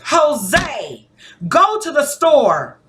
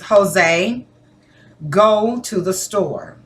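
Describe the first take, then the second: First: It is said faster and louder, sounding urgent. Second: It is said in a firm, commanding tone. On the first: It must be done right now. "the inflection, the rate of speech, my tone, and my volume even went up" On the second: An order is being given. "That is me telling you, giving you a directive"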